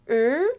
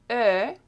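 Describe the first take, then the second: First: "E" as the tight, held "er"-like sound of "bleu"; closed vowel. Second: "E" as the eh-like sound in "peur"; open vowel. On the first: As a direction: stretch "E" closed, rising slightly. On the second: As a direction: open up "E" for contrast. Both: Shown as a demonstration. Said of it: "Did you hear the difference".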